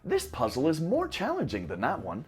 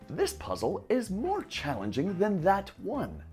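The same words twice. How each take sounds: First: The sentence is said faster and more naturally. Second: The sentence is said slowly and carefully.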